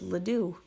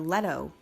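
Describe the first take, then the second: First: The name ends in a doo sound. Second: The name ends in a toe sound. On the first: "A lot of people mispronounce my last name" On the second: "A lot of people mispronounce my last name"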